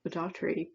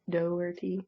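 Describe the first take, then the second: First: An r sound follows the t. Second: No r sound follows the t. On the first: The speaker calls it wrong. "I've been saying Daughtry, but there is definitely no R between that T and Y" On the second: The speaker calls it right. "make sure I am pronouncing it right"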